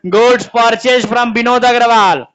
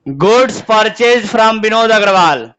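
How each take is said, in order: First: 'goods purchase from Vinod Agarwal' read slowly, word by word; slow dictation. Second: 'Goods purchase from Vinod Agarwal' repeated even slower, each word spaced. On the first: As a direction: dictate it so the class can copy. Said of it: "अगला question". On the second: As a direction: say it again, slower, prompting an answer. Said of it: "answer बताओ question का". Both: Shown as a demonstration.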